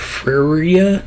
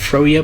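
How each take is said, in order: First: The first vowel is an 'er' sound. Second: The first vowel is an 'oh' sound. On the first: The speaker calls it right. "pronounced as like in the I R sound of bird" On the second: The speaker calls it wrong. "I used to pronounce it Froya"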